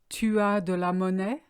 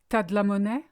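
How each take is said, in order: First: Tu and as are said as separate words. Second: Tu and as merge into one syllable, t'as. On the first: "if you want to ask someone" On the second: "you would say"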